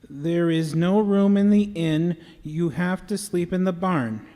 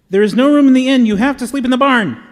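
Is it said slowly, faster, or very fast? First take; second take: faster; very fast. First: It is said at a quicker pace. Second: It is said as fast as possible.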